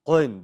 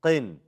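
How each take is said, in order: First: Loud, thick, dark qaf in "Qin"; super heavy qin. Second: "Qin" with a clear ee after the qaf; qin not too heavy. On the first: Teacher shows what to avoid, super heavy qin. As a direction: overdo the heaviness on Qin. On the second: Teacher corrects the students, lighter qin. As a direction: say Qin with only moderate heaviness. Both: Shown as a demonstration. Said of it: "Don't try to make it super heavy".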